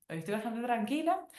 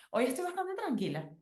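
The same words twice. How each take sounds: First: Settled, closer to her own pitch; calmer repeat. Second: Pitched well up, light and cheerful; high bright answer. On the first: Repeating the answer to herself: calm, settled. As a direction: say it again, more grounded. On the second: Answering a friend who asks how she feels: high, light reply. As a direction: sing it out brightly, well higher. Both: Retold or imitated.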